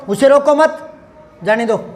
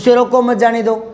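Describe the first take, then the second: First: There is a pause after the word mat. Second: The phrase runs together with no pause at all. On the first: Let the person go. "अब ये तीन एक साथ बोल लूंगा और ये दो एक साथ बोल लूंगा" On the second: It is unclear whether to keep or release the person. "और कहीं नहीं लगाया"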